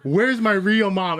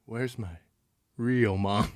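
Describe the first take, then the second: First: High, drawn-out mock yell; retold scream. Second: Low, very soft, halting question; creepy quiet. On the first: Sleepwalking son screaming at mom, mock yell. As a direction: imitate screaming without full volume. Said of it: "screaming at her". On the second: Retold or imitated. Sleepwalker just back from hugging mom, creepy quiet. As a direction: say it softly with an eerie pause before the end.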